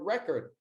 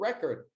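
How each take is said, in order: First: It is pronounced the way the noun sounds. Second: It is pronounced the way the noun sounds.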